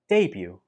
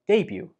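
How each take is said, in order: The two takes are said the same way.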